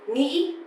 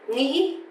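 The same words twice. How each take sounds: Both takes have the same delivery.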